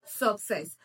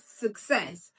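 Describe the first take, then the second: First: "success" said as SOCK-sess, stressed on the first syllable; wrong pronunciation. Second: "success" as suk-SESS, schwa then stressed SESS; stress on second syllable. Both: Shown as a demonstration. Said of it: "not success".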